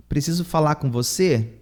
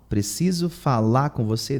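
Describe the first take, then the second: First: Said in the usual way. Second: Falar said without its final R, like fala; dropped R. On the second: Shown as a demonstration. Teacher showing learners how falar is said: falar without its final R. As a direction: drop the R at the end of falar, say fala. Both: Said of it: "The R is dropped".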